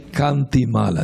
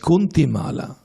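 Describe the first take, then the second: First: The first vowel sounds like 'ah'. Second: The first vowel sounds like 'oo'. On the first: The speaker calls it right. "to say Kantimala, not not Kunti" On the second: The speaker calls it wrong. "Devotees they pronounce Kantimala as Kuntimala"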